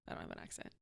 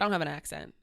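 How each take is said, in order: First: Much softer, almost voiceless aside; hushed repeat. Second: Said in the usual way. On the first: Real, not acted. Guest quietly repeating to host that there's no accent, hushed. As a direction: say it under your breath. Repeats the denial under breath.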